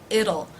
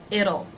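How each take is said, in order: Both takes have the same delivery.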